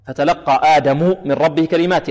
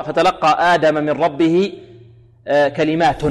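First: آدم ending in u, Adamu, then كلمات as kalimatin; nominative Adam reading. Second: آدم ending in a, Adama, then كلمات as kalimatun; variant case reading. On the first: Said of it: "آدم بالرفع تقرأ كلمات بالنصب". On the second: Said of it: "هناك من قرأ". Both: Shown as a demonstration.

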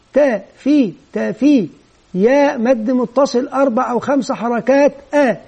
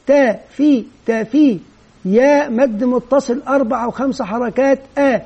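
Both takes have the same delivery.

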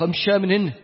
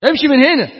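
First: Said in the usual way. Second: Half-acted yell to go away, louder and higher; mock shout. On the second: Friends shouting at the preachy friend to leave, mock shout. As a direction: shoo him off loudly.

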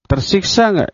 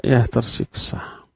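First: Said in the usual way. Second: Soft, breathy, slow "Ya, tersiksa"; hushed answer. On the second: Shown as a demonstration. Preacher answering his own question, in a soft near whisper.

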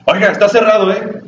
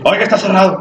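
First: A sharp, high scolding call, retold; angry shout. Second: Mock-angry, pitched high; angry scolding. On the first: Angry museum lady stopping a visitor: raised scolding shout. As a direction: snap it out high like an annoyed museum guard. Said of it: "con una voz así fuerte, y gritado, y enojada". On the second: Retold museum lady yelling at him: high mock-angry scolding. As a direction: bark it like a rude doorkeeper, imitated. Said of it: "pero así como realmente enojado".

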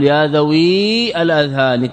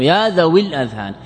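First: ذوي drawn out with a long ī, then الأذهان begun separately; ya pronounced. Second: ذوي linked straight into الأذهان with a short i; ya dropped. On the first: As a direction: wrongly sound the yā' of ذوي in full before الأذهان. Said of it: "أنت لا تقل ... تأتي بالياء". (نطق ياء ذوي ممدودة مفصولة عن الأذهان) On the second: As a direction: say ذوي الأذهان as one run, dropping the long ī. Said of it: "إذن الياء هنا محذوفة". (حذف ياء ذوي نطقًا ووصلها بالأذهان) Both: Shown as a demonstration.

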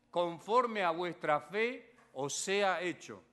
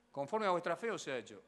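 First: "Conforme a vuestra fe os sea hecho" drawn out word by word; slowed, weighty repeat of the verse; slow solemn quote. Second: Said in the usual way. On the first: Acted. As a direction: lay each word down slowly like a verdict.

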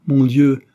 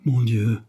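First: Louder, higher anguished cry; father cries out in despair; bitter cry. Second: Said in the usual way. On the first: A narrator's reading. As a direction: cry out to God from a bitter heart. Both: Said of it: "s'écria-t-il dans l'amertume".

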